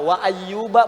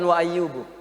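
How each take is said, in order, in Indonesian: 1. Nama itu diakhiri dengan vokal 'a'. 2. Nama itu diakhiri dengan vokal 'u'. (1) "Allah membuka dengan fathah"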